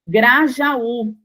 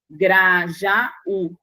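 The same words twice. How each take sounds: First: Said in the usual way. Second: "Grajaú" split into Gra-ja-ú; syllable by syllable. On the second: Shown as a demonstration. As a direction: separate the final ú of "Grajaú" from the a, Gra, ja, ú. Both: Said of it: "fazer a separação silábica".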